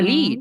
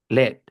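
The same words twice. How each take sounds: First: The vowel is a long 'ee' sound. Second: The vowel is a short 'eh' sound. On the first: It means to guide or be in charge. "Y larga" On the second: It means the metal. "Ahí suena E"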